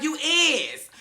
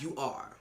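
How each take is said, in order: First: High, loud mock correction; sassy retort. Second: Low, soft comeback; deflated correction. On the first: D'Angelo correcting Ryan's grammar, high sassy jab. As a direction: fire it back pitched way up. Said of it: "He was like". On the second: Retold or imitated. Ryan answering D'Angelo, low and quiet. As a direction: mutter the proper grammar back. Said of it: "And then Ryan was like".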